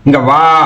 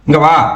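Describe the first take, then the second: First: It is called out in a stern, serious tone. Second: It is called out with mild hurry. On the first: The listener must get up and come at once. "சீரியஸா இருக்கும் போது" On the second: The caller wants the listener to come somewhat quickly. "என்ன கொஞ்சம் அவசரமா கூப்பிடுறாரு"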